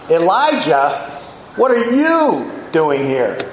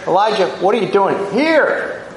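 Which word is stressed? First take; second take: you; here. First: The stress is on the word you. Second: The stress is on the word here. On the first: Of all people, this person should not be here. "Of all people, Elijah" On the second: The place itself is significant. "That was Mount Horeb, where the law had been instituted"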